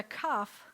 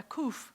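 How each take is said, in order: First: "kaf" with an open ah vowel; name the letter "kaf", rhyming with cough; distinguishing letters. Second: "kuf" with a rounded oo vowel; name the letter "kuf" as koof; distinguishing letters. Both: Shown as a demonstration. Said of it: "they're not, and I've said this before".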